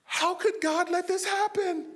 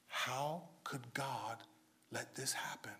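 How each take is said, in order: First: Much higher, lightly mocking question; mock high quote. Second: Whispered, low and slow, as a quiet lament; hushed question. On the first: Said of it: "you never hear her say". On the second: Retold or imitated. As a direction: breathe the question almost without voice. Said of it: "the first question you hear is".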